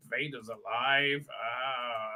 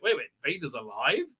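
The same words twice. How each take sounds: First: Low, slow, softer musing; hushed, lower brooding delivery; pensive realisation. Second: Questioning, rising at the end; puzzled double-take; mock disbelief. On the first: Retold or imitated. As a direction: think aloud, letting the news sink in. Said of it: "he's thinking about Darth Vader". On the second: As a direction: react with understated incredulity. Character learns shocking news.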